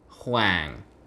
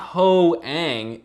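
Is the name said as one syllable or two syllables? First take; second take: one syllable; two syllables. First: The name is said as one syllable. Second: The name is split into two syllables. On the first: The speaker calls it right. "it's huang" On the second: The speaker calls it wrong. "it's not ho-ang"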